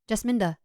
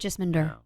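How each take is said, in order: First: The name ends in a plain 'uh' sound. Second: The name ends in an 'er' sound. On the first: It copies how the British speakers say it. The speaker calls it wrong. "I thought it was like a uh sound. They say Jasminda" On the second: It follows the written E R ending. The speaker calls it right. "So it is supposed to be Jasminder"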